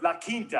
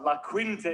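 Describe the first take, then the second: First: "La Quinta" said the Spanish way, KEEN-tah; Spanish pronunciation. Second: Said in the usual way. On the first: Retold or imitated. Correcting a hotel guest, "La Quinta" in Spanish pronunciation. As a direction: say "La Quinta" with a k sound, not kw. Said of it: "You can't force me to speak Spanish". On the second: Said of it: "Some people correct me when they say that".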